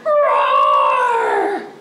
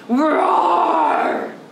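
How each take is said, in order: First: It is roared louder. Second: It is roared at a normal loudness.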